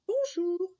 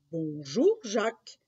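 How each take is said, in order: First: Put-on high-pitched child's hello; little boy. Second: Lightly voiced strange old man's greeting; smiling old man. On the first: Jacques greets the strange old man back, high boyish voice. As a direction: answer as a small boy, high up. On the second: Strange old man greets Jacques on the road, lightly smiling. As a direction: greet with an audible smile, rising. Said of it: "lui dit-il en souriant".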